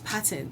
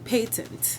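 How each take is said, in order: First: It is said with the non-British pronunciation. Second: It is said with the British pronunciation. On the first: "everyone else says patent" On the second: "you find more British territories say patent"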